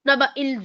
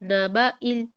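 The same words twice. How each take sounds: First: The catch is said with a hard jolt. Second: The catch is said gently and smoothly. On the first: The speaker calls it wrong. "ज़ोर से झटका देते हैं" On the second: The speaker calls it right. "नरमी के साथ"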